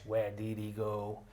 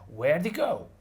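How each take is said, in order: First: The H is dropped but did is kept. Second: Both the H and the D are dropped. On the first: "We usually drop the H" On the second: "And we drop a D as well"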